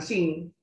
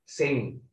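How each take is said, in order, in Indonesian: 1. Vokalnya adalah bunyi ee tegang (tense). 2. Vokalnya adalah i pendek (lax). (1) "bukan sing" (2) "Ini juga nih, sing"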